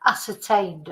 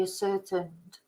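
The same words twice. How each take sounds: First: "Ascertained" with a full final -TAIN, "ass-er-TAINED"; self-correction, "Ascertained" with a long ay at the end; corrected pronunciation. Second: "ascertained" with a weak last syllable, like "a-SER-tund"; mispronounced ascertained. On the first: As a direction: say "Ascertained" carefully, last syllable rhyming with rained. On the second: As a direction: misread "ascertained" as if it were "a-certained". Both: Real, not acted. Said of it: "I should say".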